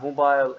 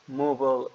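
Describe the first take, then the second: First: It is said in a British accent. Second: It is said in an American accent. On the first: "mobile in the British" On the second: "mobile in U S accent"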